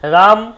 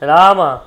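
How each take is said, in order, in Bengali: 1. নামটি খালি ব্যঞ্জন ধ্বনি দিয়ে শেষ হয়। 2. নামটি ব্যঞ্জনের পরে একটি স্বর দিয়ে শেষ হয়। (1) "সবগুলো কিন্তু আপনার অর্ধ ব্যঞ্জন হিসেবে উচ্চারণ হবে" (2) "সম্পূর্ণ ব্যঞ্জন উচ্চারিত হবে"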